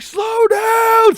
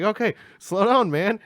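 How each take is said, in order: First: Full-volume shriek, pitched very high; frantic, top-of-the-voice shout; panicked scream. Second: High, loud, urgent plea; worried passenger speaking up, not yet screaming; alarmed urging. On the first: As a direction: scream at the driver to stop speeding. Screams at ninety-five. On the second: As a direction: rein in a speeding driver, voice raised. Urges driver at eighty. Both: Retold or imitated.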